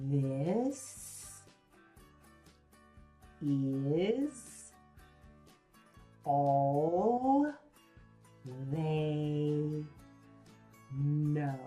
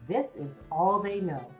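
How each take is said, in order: First: Each word is said separately and slowly. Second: The words flow together at talking speed.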